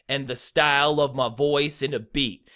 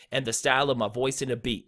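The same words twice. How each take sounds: First: Deliberate beats on "style", "voice" and "beat"; two light syllables, then punch "style", "voice", "beat"; anapestic stress. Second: Fast, run-together rhythm with lighter stresses on "style", "voice", "beat"; quick anapestic flow. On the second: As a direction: rattle it off in a quick triplet lilt. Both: Shown as a demonstration. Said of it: "and then a stressed syllable".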